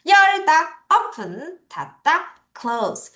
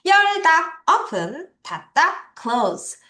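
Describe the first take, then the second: No difference in how they are said.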